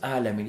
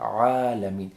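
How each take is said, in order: First: It starts with a plain vowel, no throat sound. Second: It starts with a throat ayn sound. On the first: The speaker calls it wrong. "it's not alamin" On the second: The speaker calls it right. "it's ayn there"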